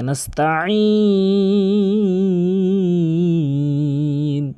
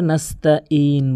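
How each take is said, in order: First: "নাস্তাইন" chanted with a very long ending; correct throaty ayn. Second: "নাস্তাইন" with a plain glottal ee; common mispronunciation. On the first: Teacher showing the right ayn, long melodic recitation. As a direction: squeeze mid-throat and hold the ee in "নাস্তাইন". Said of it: "আইনের উচ্চারণ করতে হবে হলকের মাঝখান থেকে". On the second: Teacher mimicking a serious mistake, plain vowels. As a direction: say "নাস্তাইন" without the throaty ayn. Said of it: "মারাত্মক লেভেলের ভুল করে". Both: Shown as a demonstration.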